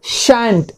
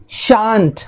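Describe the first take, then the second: First: Shan't with the a of cat; second pronunciation. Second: Shan't with a long ah, SHAHNT; first pronunciation. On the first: Teacher shows the other pronunciation, shan't with short a. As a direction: say "shan't" as SHANT, rhyming with ant. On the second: Teacher shows one of two pronunciations, shan't with long ah. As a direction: say "shan't" with the open vowel of father. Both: Shown as a demonstration. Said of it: "इनके दो pronunciation होते हैं".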